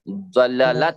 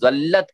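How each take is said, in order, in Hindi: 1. दोनों L ध्वनियाँ एक स्वर से अलग होती हैं। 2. दोनों L ध्वनियाँ मिलकर एक लंबी L बन जाती हैं। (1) "दो हरफों को अलग कर दिया है" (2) "दल्लत नहीं होगा ये"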